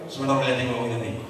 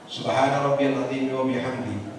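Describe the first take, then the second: First: The phrase is rushed and said very fast. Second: The phrase is said at a measured, clear pace. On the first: The speaker calls it wrong. "kecepatan itu. Enggak jelas, enggak tartil" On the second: The speaker calls it right. "itu sudah cukup"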